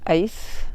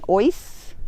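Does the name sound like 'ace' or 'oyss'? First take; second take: ace; oyss. First: The name is said with an 'ay' vowel. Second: The name is said with an 'oy' vowel. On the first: This is how South Africans say it. "That's probably our South African thing" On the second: This is how the locals say it. "We got the pronunciation from the locals"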